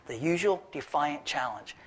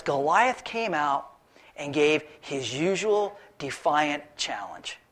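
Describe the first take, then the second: First: Softer repeat leaning on "usual"; quiet echo. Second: Slow, deliberate reading of the verse; the usual defiant challenge read slow and weighty; savoring scripture. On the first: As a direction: murmur it back, hitting "usual". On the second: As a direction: read it out slowly, relishing each word. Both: Shown as a demonstration. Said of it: "I love the way the Bible puts it".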